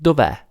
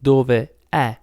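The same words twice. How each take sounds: First: "dov'è" run together as one word, dov-È, falling at the end; contracted form. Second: "dove è" said slowly as two separate words, dove then è; wrong split form. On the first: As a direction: glide "dov'è" into a single smooth word. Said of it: "but it's". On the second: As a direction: pull "dove" and "è" apart with a clear break. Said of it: "it's not dove è". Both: Shown as a demonstration.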